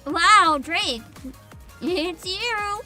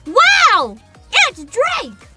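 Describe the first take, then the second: First: It sounds only mildly surprised. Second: It sounds much more surprised.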